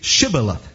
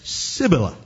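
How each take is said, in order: First: The word begins with an 'sh' sound. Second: The word begins with an 's' sound. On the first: The speaker calls it right. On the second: The speaker calls it wrong. "he could not frame to pronounce it right"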